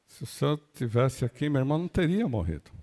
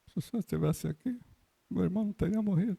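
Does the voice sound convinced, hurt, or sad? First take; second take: hurt; sad. First: The voice sounds hurt and reproachful. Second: The voice sounds sad and sorrowful. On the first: The speaker blames the listener for arriving late. "um quê de, de mágoa" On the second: The speaker is grieving the loss.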